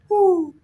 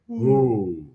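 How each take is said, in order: First: A normal owl hoot at medium pitch. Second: A deep, low Papa Owl hoot.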